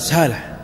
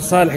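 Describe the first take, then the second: First: The first sound is a plain, light S. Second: The first sound is an emphatic, heavy S. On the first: "ما يستطيع ينطق حتى الصاد ينطقها سين" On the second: "إذا قال صالح"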